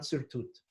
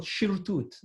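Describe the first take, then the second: First: "sirtut" opening on a plain S; S pronunciation. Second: "shirtut" opening on a SH sound; SH pronunciation. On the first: Teacher contrasts the common form, "sirtut" with S. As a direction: start "sirtut" with S, not SH. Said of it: "not sirtut". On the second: Teacher quotes his rabbi's pronunciation, "shirtut" with SH. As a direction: start "shirtut" with SH, not S. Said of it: "used to call it shirtut". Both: Shown as a demonstration.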